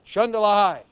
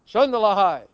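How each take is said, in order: No difference in how they are said.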